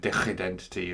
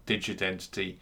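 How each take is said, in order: First: "digidentity" said the Dutch way, with a throaty g; "digidentity" with a Dutch guttural g; Dutch pronunciation. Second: Said in the usual way. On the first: Shown as a demonstration. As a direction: say "digidentity" as a Dutch speaker would, scraping the g in the throat. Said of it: "a Dutch person would, uh, pronounce it". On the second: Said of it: "is how I would pronounce it".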